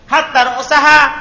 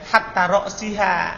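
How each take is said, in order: First: The vowel before -ha is a. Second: The vowel before -ha is i. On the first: Hatta works as a conjunction. "huruf atop berarti rosaha" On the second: Hatta works as a preposition. "huruf jer berarti apa? Rosiha"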